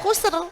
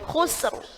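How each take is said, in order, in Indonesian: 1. Bunyi r terakhir tipis dan ringan. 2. Bunyi r terakhir tebal dan berat. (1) "nggak boleh"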